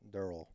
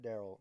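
First: The name sounds like Dearl, matching its spelling. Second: The name sounds like the common name Daryl. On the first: The speaker calls it right. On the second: The speaker calls it wrong. "Not Daryl"

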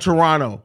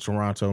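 First: The second T is dropped. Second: The second T is clearly pronounced. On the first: The speaker calls it right. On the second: The speaker calls it wrong.

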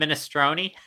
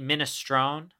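First: It is said with a standard, non-New Jersey pronunciation. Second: It is said with a New Jersey Italian pronunciation. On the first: "rather than minestrone" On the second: "New Jersey Italian enough to pronounce it minestrone"

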